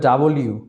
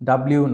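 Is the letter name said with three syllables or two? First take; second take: three; two. First: It is said fully in three syllables. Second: It is squeezed into two syllables. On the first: The speaker calls it right. "এটা হবে ডাবল ইউ" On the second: The speaker calls it wrong. "ডাব্লিউ না"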